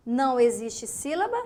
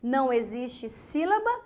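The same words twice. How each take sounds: The two takes are said the same way.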